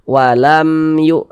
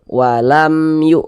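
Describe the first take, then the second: No difference in how they are said.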